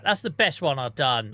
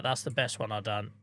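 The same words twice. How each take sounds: First: Proud. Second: Softer, quietly pleased. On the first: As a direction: boast about it proudly. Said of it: "I'm taking a win on that". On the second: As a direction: say it quietly to yourself. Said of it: "I don't give myself a lot of credit". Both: Real, not acted.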